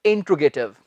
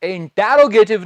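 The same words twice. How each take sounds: First: इंटरोगेटिव with the "te" reduced, "in-tro-ge-tiv"; correct interrogative. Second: इंटेरोगेटिव with a stressed, full "te" syllable; wrong-example इंटेरोगेटिव with an extra full vowel after T; mispronounced interrogative. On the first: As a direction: say इंटरोगेटिव lower, middle vowel swallowed. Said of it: "मैं हर lecture में बता रहा हूं". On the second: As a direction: say इंटेरोगेटिव wrongly, drawing out "in-TE-ro-ge-tiv". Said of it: "नहीं". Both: Shown as a demonstration.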